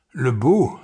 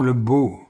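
First: "beau" swooping up into a question; questioning echo. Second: Said in the usual way. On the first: A narrator's reading. Reader questions the word just said, "beau" rising in doubt.

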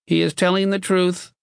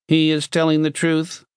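First: High, monotone box voice with slight reluctance; reluctant machine. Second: High, monotone machine voice; toneless metal box. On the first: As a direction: concede it mechanically. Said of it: "it said reluctantly". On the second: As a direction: intone it like a talking machine. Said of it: "the metal box said tonelessly". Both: A narrator's reading.

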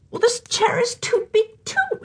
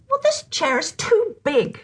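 First: Put-on much higher, whiny little girl; whining girl. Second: Put-on higher little girl voice, lightly exclaimed; a small girl finding the chair too big; mild girlish exclamation. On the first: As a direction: whine it like a tired small girl. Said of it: "she whined". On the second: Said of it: "she exclaimed".

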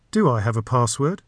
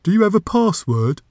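First: Said in the usual way. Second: High-pitched questioning door creature; magic door voice. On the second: A narrator's reading. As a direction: ask it as a put-on magic door.

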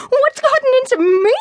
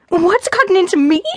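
First: High, indignant rising shout on gotten; angrier incredulous repeat. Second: Angry echo. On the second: She echoes him angrily. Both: Acted.

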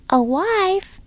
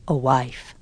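First: Put-on high-pitched child, astonished and rising; astonished question. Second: Low-pitched father, falling statement; father's statement. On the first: Caleb stares at Papa on hearing news, astonished. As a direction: ask it high, in disbelief. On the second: Papa tells his children his plan, low statement. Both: A narrator's reading.

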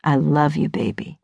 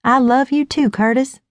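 First: Low, affectionate husband voice; tender man's voice, pitched down and trailing softer; Curtis. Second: Higher, sweetly adoring wife; wife's loving reply. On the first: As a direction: drop low and soften on the last word. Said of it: "Curtis kisses my nose". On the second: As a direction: answer sweetly, pitched up. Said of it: "I reply". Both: A narrator's reading.

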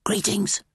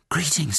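First: High, hushed bird voice; whispering caterbird. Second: Lightly raised pitch, voiced reply; young hero's voice. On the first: Acted. Caged caterbird greeting Twig, high whisper. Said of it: "the caterbird whispered". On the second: Twig answering the caterbird, lightly voiced greeting. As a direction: return the greeting without whispering.

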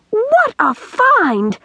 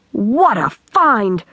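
First: Very high, long drawn-out exclamation; ecstatic cry. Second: Slow, savoured exclamation at usual pitch; delighted cry. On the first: Girl exults over the tin can, soaring ecstatic cry. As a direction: soar up and stretch each word in delight. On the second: Girl admires the tin can, slow delighted cry. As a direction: draw out the delight, not yet soaring. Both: A narrator's reading. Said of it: "Pippi gave a terrific yell".

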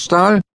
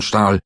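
First: Stahl? thrown out very high, loud and rising; sharp call. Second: Said in the usual way. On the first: A narrator's reading. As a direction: fling the name Stahl? at him as a challenge. Klinger shouts the name.

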